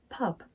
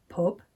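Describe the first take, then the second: First: "pub" with open uh as in southern cup; RP vowel. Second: "pub" with the oo of foot; Northern vowel. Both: Shown as a demonstration. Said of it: "The other differences were".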